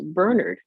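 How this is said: The name is said the British way. This is how the name is said in England. The speaker calls it right. "the name is pronounced Bernard"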